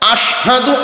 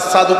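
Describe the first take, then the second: First: The word is said with a 'sh' sound. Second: The word is said with an 's' sound. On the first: The speaker calls it right. "এই যে আশহাদুর শিন" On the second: The speaker calls it wrong. "শিনের ক্ষেত্রে সিন উচ্চারণ করতেন, আসাদু কইতেন"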